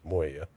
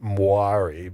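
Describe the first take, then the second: First: The name has no r sound in the middle. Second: The name has an r sound in the middle. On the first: The speaker calls it right. "but it's like no, it's Moya" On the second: The speaker calls it wrong. "I always called it Moari"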